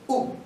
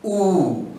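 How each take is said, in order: First: The vowel sound is short. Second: The vowel sound is long. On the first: "good was a short vowel sound" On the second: "it becomes oo"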